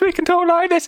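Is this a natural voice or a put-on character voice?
put-on. It is said in a put-on character voice. This is a character's voice. "and then when we're doing sticker points"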